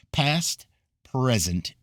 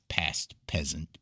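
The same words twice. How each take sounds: First: Said in the usual way. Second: "present" slips out as "peasant", missing its R; tongue-tied slip into "peasant"; fumbled word. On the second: Real, not acted. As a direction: stumble on the word, saying "peasant". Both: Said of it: "stuttering and fumbling".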